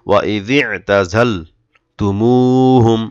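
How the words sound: The phrase is read with a pause inside. "এভাবে থেমে পড়তে পারেন"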